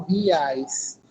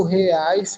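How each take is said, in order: First: "reais" said ri-ais, with i for the e; reais with an i sound. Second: Said in the usual way. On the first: Shown as a demonstration. Teacher contrasting it for students, "reais" as ri-ais. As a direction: turn the e of "reais" into an i. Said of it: "fala somente com o som do i". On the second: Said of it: "muda só do reais pra o".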